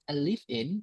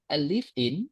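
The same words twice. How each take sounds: The two takes are said the same way.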